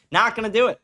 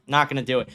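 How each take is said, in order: First: Not gonna do it. pushed higher, with force; refusing harder the second time; emphatic repeat. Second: Said in the usual way. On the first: Real, not acted. Streamer to his viewers, refusing again with more force. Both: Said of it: "repeats refusal, second louder".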